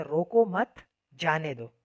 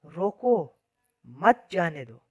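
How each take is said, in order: First: "रोको मत" as one phrase, pause, then "जाने दो"; slow, loud, full stop heard after मत. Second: रोको alone and loud, pause, then "मत जाने दो"; full stop heard right after रोको. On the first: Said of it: "के बाद फुल स्टॉप लगा हुआ है". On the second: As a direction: break after रोको, hit मत जाने दो as one phrase. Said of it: "के आगे लगा दूँ". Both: Shown as a demonstration.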